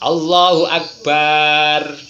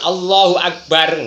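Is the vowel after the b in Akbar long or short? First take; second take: long; short. First: The vowel after the b is drawn out long. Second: The vowel after the b is short. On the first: It adds an alif and changes the meaning to a big drum. The speaker calls it wrong. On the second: God is the greatest. The speaker calls it right.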